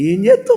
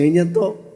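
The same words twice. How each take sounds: First: ఏం చేస్తావు? thrown up very high in mock disbelief. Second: Said in the usual way. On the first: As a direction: ask ఏం చేస్తావు? in a high, incredulous squeak. Mocking question to husband.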